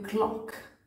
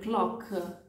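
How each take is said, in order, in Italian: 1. La parola finisce netta sulla K. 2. Dopo la K si sente un suono in più.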